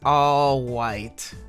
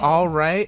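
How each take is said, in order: First: The R in 'right' sounds like a W. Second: The R in 'right' is a normal R. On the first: This imitates a character's cutesy way of talking. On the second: This is the ordinary way to say it. "normally, if you say it, you're going to say"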